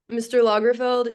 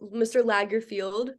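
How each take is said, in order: First: The name ends with a short 'feld' sound. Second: The name ends with a long 'field' sound. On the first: The speaker calls it right. "There is no field" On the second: The speaker calls it wrong. "as I was repeatedly calling you"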